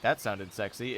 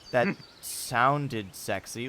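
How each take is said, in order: First: It sounds genuinely sexy. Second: It sounds ironic and deliberately weird.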